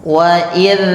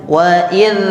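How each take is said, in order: The two takes are said the same way.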